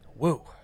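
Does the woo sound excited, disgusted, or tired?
disgusted. It sounds disgusted, as at a bad smell.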